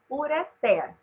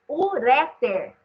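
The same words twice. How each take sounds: First: The stress falls on the final syllable. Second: The stress falls on the second syllable. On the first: The speaker calls it right. "A forma correta de pronunciar é ureter" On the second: The speaker calls it wrong. "teria que ter acento, porque seria paroxítona terminada em R"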